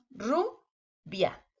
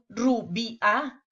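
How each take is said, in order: First: "rubia" slowly in two beats, ru, bia; correct syllable split. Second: "rubia" broken into three beats, ru, bi, a, rising; wrong syllable split. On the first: Teacher shows what we do say, "rubia" split ru-bia. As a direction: say "rubia" as "ru... bia", gliding "bia" together. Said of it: "decimos rubia". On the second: Teacher shows what we don't say, "rubia" chopped ru-bi-a. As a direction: say "rubia" slowly as "ru-bi-a", splitting the diphthong. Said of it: "No decimos rubia". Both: Shown as a demonstration.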